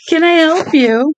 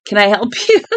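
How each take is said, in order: First: Slow, much higher sarcastic "Can I help you?"; hammed-up polite stranger, drawn out high; mock-sweet slow high question. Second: Said in the usual way. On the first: Mocking voice for the scene.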